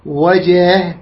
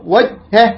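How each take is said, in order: First: وجهه with jim released in a light bounce; correct qalqala. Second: وجهه with jim held shut, no bounce; mistaken reading. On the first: Teacher corrects a common misreading, echoing jim. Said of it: "تقلقل، زين". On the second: Teacher shows how some people misread, unbounced jim. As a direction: stop on the ج of وجهه, then say the h separately. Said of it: "يقرأ هكذا خطأ". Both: Shown as a demonstration.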